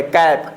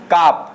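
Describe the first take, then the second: First: कैप with a front "ae" vowel; short-a pronunciation. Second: काप with a drawn-out open "aa"; wrong long-aa reading. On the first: Teacher reading C-A-P for students, correct vowel. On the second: Teacher showing students what not to read, aa vowel. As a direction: say काप slowly with aa instead of ae. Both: Shown as a demonstration. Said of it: "नहीं पढ़ेंगे".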